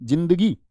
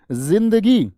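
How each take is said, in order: First: जिंदगी with a plain J, 'jindagi'; everyday Hindi pronunciation. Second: जिंदगी with a buzzing Z, 'zindagi', drawn out; Arabic nukta pronunciation. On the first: Teacher showing our own way of saying it, जिंदगी with J. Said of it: "हमारा वाला जिंदगी तो ऐसा है". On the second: Teacher showing their Arabic way, जिंदगी with a Z. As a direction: stretch जिंदगी slowly, starting on Z. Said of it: "उनका वाला है जिंदगी". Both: Shown as a demonstration.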